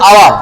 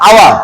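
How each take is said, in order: Both takes have the same delivery.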